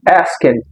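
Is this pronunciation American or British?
American. It is said with an American accent. "O inglês americano, na maioria das vezes, você vai pronunciar asking"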